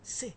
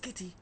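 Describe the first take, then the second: First: The word begins with an s sound. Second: The word begins with a k sound. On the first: The speaker calls it right. "it is pronounced as C" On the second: The speaker calls it wrong. "not kitty"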